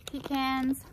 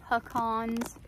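First: Pecans as "pee-CANS", flat short a; pecan said two ways. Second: Pecans as "puh-KAHNS", soft first syllable; pecan said two ways. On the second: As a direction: say pecans with a weak first vowel and a broad AH, "puh-KAHNZ". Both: Shown as a demonstration. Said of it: "I used to say".

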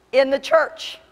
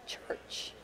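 First: Loud, raised, forceful declaration; emphatic repeat. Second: Whispered, barely voiced; hushed reveal. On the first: Preacher driving the point home to congregation, loud emphatic repeat. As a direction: punch it out higher and louder. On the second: Preacher revealing where the lost are, hushed whisper. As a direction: drop to a near-silent whisper. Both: Shown as a demonstration.

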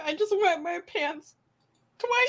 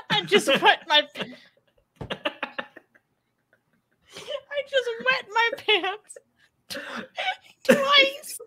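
First: Much higher, squeaky, laughing replay of the line; giggly squeaky repeat. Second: Squeaking much higher through helpless laughter; barely getting the words out between laughs; laughing while reading. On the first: Host repeats the best chat comment to cohost, squeaky and giggling. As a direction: squeal it out fondly, still amused. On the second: Host reads a viewer's chat comment, cracking up. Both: Real, not acted.

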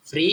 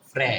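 First: "ফ্রি" with an ee vowel; FRE read as "fri". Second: "ফ্রে" with an e vowel; FRE read as "fre". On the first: Teacher shows first reading of FRE, ee sound in "ফ্রি". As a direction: say "ফ্রি" like English "free". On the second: Teacher shows second reading of FRE, e sound in "ফ্রে". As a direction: say "ফ্রে", ending in e as in "fresh". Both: Shown as a demonstration. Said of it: "কি হবে?".

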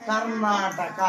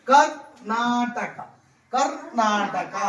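First: Said in the usual way. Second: Very slow Karnataka, each syllable stretched; teacher modelling the word slowly; slow demonstration. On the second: Shown as a demonstration. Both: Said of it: "ఇప్పుడు చూడు".

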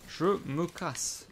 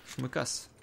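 First: Very slow, stretched out; drawn out. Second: Said in the usual way. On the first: Real, not acted. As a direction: drag each word out lazily. Répète la même phrase, traînée. (très lent, étiré)

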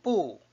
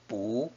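First: "Bu" falling sharply from high; fourth-tone bu. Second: "Bu" rising from low; second-tone bu. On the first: Teacher explaining bu before a third tone, falling "Bu". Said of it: "is pronounced as a fourth tone". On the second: Teacher explaining that bu changes before fourth tones, rising "Bu". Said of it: "changes to a second tone". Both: Shown as a demonstration.

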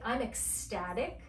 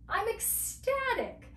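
First: Said in the usual way. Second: High-pitched delighted exclamation; acted ecstatic. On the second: Shown as a demonstration. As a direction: sell the thrill, pitch leaping up. Demonstrating the phrase with feeling.

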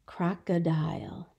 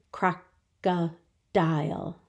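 First: Said in the usual way. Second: "Crocodile" slow, in three separate beats; syllable by syllable. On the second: Shown as a demonstration. Teacher showing a three syllable word, "Crocodile" slowly broken in three. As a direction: pause after each syllable of "Crocodile". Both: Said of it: "Another three syllable word".

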